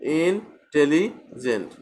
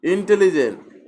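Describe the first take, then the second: First: ইনটেলিজেন্ট slowly in three separate parts, in-teli-gent; broken into syllables. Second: Said in the usual way. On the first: Shown as a demonstration. Teacher shows ইনটেলিজেন্ট has three syllables, slowly broken apart. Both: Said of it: "একটা ওয়ার্ডকে তিনবার ভেঙে ভেঙে উচ্চারণ".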